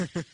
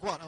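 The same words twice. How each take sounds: First: Mock frustrated, sharper "What?"; retold question with mounting frustration. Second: Said in the usual way. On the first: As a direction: imitate a dad's exasperated "What?". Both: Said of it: "but this time he's frustrated".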